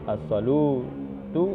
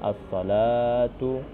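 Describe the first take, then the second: First: The vowel after L is an 'u' sound. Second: The vowel after L is a long 'a' sound. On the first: The waw letter is wrongly read as a vowel. The speaker calls it wrong. "maka mungkin orang akan membaca as-salu, as-salutu" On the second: This is the reading passed down from the Prophet. The speaker calls it right. "dibaca dengan bacaan as-salatu"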